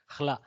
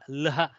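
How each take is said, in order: First: The h sound comes before the l. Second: The h sound comes after the l. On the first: This is how it is written. "some people pronounce it with the ha attack first, then the lakara" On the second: This is a regional variant. "Some people pronounce it lha"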